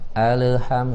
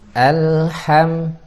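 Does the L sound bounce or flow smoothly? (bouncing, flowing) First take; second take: bouncing; flowing. First: The L bounces with a small release. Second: The L flows smoothly into the next sound. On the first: The speaker calls it wrong. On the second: The speaker calls it right.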